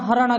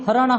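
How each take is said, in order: First: The word begins with an h sound. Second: The word begins with an h sound.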